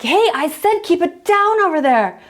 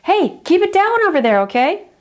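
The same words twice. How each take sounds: First: Higher, sharper yell, losing patience; irritated repeat yell. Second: Yell over hedge. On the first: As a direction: call over the hedge with a warning edge. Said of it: "and you're like". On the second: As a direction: shout across to the noisy kids, still polite. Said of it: "you just kind of yell over the hedge". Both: Retold or imitated.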